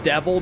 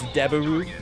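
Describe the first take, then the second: First: It is said with English sounds. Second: It is said with Japanese sounds and syllables.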